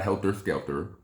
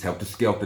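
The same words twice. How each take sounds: First: The last syllable ends in an 'er' sound. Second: The last syllable ends in an open 'ah' sound. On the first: The speaker calls it wrong. "not an E and a R" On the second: The speaker calls it right. "A and a H"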